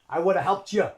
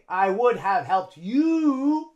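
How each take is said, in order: First: 'You' is said with a reduced schwa vowel. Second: 'You' is said with a full vowel. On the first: The speaker calls it right. "We use schwa" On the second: The speaker calls it wrong. "We don't say"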